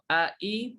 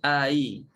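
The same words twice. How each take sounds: First: The second hamza is pronounced fully. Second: The second hamza is softened, without a full stop. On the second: "tashilkan jadi"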